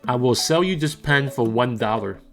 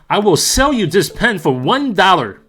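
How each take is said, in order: First: It is said in a plain, normal talking voice. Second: It is said loudly and excitedly, like yelling. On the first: "Here is my normal recording voice" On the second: "Here is my exciting yelling across the room voice"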